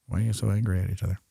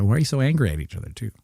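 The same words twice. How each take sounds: First: Quick, soft aside; muttered repeat question. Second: High, rapid mock query; quick, raised-pitch questioning; mock puzzled question. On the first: Acted. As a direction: mutter it rapidly. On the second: Acts puzzled question to arguing speakers.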